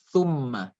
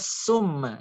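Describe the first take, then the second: First: It begins with th, tongue against teeth. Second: It begins with a plain s sound. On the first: The speaker calls it right. "disebutkannya di ujung lidah dan di pangkal gigi" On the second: The speaker calls it wrong. "Jangan baca summa"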